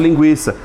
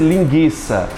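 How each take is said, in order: First: The u after the g is pronounced. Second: The u after the g is silent. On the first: The speaker calls it right. "se pronunciasse o linguiça" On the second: The speaker calls it wrong. "para que as pessoas não errassem"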